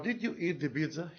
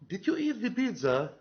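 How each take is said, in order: First: It sounds like a neutral, genuine question. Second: It sounds accusing and reproachful, not inquiring. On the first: The speaker wants to know whether it happened. "Here you ask about, or you want to uh, know if that person ate the pizza or not" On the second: The speaker is blaming the listener for eating it. "you are blaming that body"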